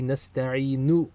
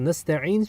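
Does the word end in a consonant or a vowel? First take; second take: vowel; consonant. First: The word ends with a short u vowel. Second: The word ends on the consonant n. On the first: The full verb ending is pronounced without a pause. "with a dhamma on the end if you pronounce the, the entire verb" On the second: The reciter is pausing at the end of the verse. "we stop with the sukun in recitation"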